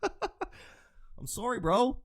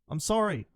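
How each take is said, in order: First: Sorry broken up by a laugh, slow; giggling through the apology. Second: Said in the usual way. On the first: Real, not acted. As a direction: apologize while still laughing. Laughing at own bad analogy.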